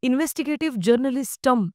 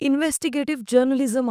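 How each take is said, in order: First: Journalism is said with an extra 't' sound. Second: Journalism ends with a plain 'zum' sound. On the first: The speaker calls it wrong. "जर्नलिस्टम seriously?" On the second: The speaker calls it right. "Investigative जर्नलिझम आहे ते"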